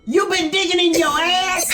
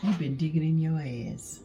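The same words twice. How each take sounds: First: It sounds angry and sharp. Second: It sounds surprised, with a gasp.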